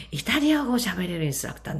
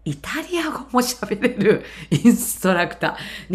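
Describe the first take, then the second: First: Said in the usual way. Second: イタリア語 drawn out slowly with weight on リ; slow down and lean on イタリア語; slow emphatic. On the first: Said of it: "英語を喋れるインストラクター多いですけど". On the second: Shown as a demonstration. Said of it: "すごいのはね". (イタリア語をゆっくり強調して)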